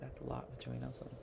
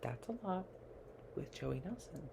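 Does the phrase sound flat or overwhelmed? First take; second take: flat; overwhelmed. First: It sounds flat and matter-of-fact. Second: It sounds overwhelmed and exasperated. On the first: The speaker calls it wrong. "You can't say" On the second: The speaker calls it right. "You have to say it in a certain way"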